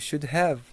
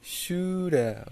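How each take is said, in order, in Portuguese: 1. Have é dito como uma palavra separada e completa. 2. Have é reduzido a um som fraco de uh.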